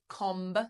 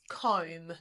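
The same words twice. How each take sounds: First: The final B sound is pronounced. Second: The final B sound is not pronounced. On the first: The speaker calls it wrong. "we don't say comb" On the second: The speaker calls it right. "The B is silent"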